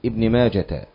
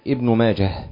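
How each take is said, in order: First: The name ends with a t sound. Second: The name ends with a silent h sound. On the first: The speaker calls it wrong. "لا يصح معها أن تبدل الهاء تاء، يعني لا تقول ابن ماجة" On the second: The speaker calls it right. "دائما قل ابن ماجة بتسكين الهاء"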